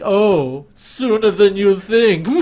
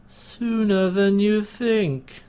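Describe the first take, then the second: First: Slow, high, loud sinister drawl; hammy villain voice. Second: Slow, high, drawn-out menace; sinister villain voice. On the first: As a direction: ham up the smug villain line. Repeats villain line hammier. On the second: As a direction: purr it like a smug villain. Mocking villain line. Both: Retold or imitated.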